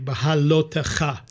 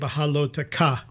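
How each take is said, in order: First: It has a throaty sound before the final vowel. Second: It has a plain k sound before the final vowel. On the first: This is how people who grew up with the language say it. The speaker calls it right. "they would never be able to say bahalotecha" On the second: The speaker cannot make the sound. The speaker calls it wrong. "They'll say bahaloteka"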